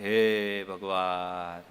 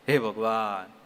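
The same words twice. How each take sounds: First: It sounds sorrowful, like a heavy sigh of grief. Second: It sounds pained, like a cry after getting hurt. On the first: The speaker has just heard sad news. "આ શોકથી" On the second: The speaker has just been injured. "આ ચોટથી નામ લીધું"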